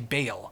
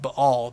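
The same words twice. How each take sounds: First: The word is said with an English pronunciation. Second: The word is said with a Hebrew pronunciation. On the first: "most of us Westerners will say Baal" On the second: "That's the proper Hebrew pronunciation"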